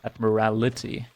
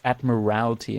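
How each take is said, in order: First: The word has five syllables, an extra vowel. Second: The word has four syllables, no extra vowel. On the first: The speaker calls it wrong. "not admirality" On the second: The speaker calls it right. "learn its admiralty"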